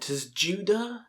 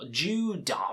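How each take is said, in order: First: The name begins with an audible T sound. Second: The name begins without any T sound.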